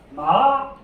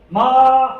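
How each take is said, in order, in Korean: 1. 음높이가 중간에서 시작해서 위로 올라갑니다. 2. 음높이가 처음부터 끝까지 높고 평평하게 유지됩니다. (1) "이렇게 하는 게 이성이고요" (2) "크게 높은 높은 음에서 끝까지 높게 끝나는 게 일성 마입니다"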